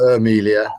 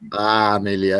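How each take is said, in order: First: The name begins with an 'er' vowel. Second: The name begins with a full 'a' vowel. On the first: This is how some Singaporeans say it. "It seems like the the Singaporean pronunciation, of, at least of some, would be Ermelia" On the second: This is how other Singaporeans say it. "Some would be Amelia"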